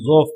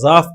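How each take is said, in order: First: The first vowel is a rounded 'u' sound. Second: The first vowel is an open 'a' sound. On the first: The speaker calls it right. "ज़ा के ज़ाद के जम्मा के साथ" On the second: The speaker calls it wrong. "ज़ाफ पढ़ा फतहा के साथ"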